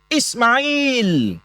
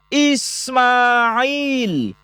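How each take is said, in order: First: The vowel after the m is kept short. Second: The vowel after the m is drawn out long. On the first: The speaker calls it wrong. "Tidak dibaca Ismail" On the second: The speaker calls it right. "Padahal kalau kita baca, itu dibaca Ismail"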